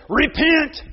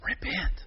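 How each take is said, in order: First: Put-on higher, eager little-boy shout-out; a small boy repeating it proudly; child preacher echo. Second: Hushed prompting whisper. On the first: Little Luke echoing grandfather's cue, higher and eager. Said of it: "you hear Luke say". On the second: Retold or imitated. Grandfather prompting the child preacher in a whisper. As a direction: grandfather whispering the cue to a boy. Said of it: "he hears grandfather whisper".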